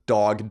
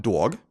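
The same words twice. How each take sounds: First: Said in the usual way. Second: "dog" in a New York accent, as "dwog". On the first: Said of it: "so he says coffee as being coffee". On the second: Shown as a demonstration. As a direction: say "dog" like a Long Islander, with a rounded "dwaw". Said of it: "a very distinct New York accent".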